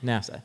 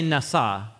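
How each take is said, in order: First: It sounds like the English acronym NASA. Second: It does not sound like the English acronym. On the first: The speaker calls it wrong. "But don't say NASA. Don't say that" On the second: The speaker calls it right. "Say Nasa"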